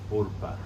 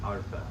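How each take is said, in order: First: The first vowel sounds like 'oh'. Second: The first vowel sounds like 'ah'. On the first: The speaker calls it right. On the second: The speaker calls it wrong.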